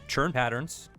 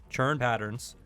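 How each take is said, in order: The two takes are said the same way.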